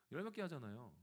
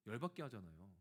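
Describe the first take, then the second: First: Repeated through a laugh; sheepish laughing retort. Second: Said in the usual way. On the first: Retold or imitated. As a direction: laugh while making the excuse. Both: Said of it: "그럼 화낸 거죠".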